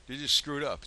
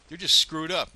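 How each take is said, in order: First: Said in the usual way. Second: Louder, higher burst of disgust; angry outburst. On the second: Real, not acted. Ranting to viewers about the county, loud and angry. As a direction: spit it out, fed up.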